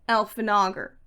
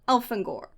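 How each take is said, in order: First: The name is said with four syllables. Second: The name is said with three syllables. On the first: The speaker calls it wrong. "Not Elfanagar" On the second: The speaker calls it right.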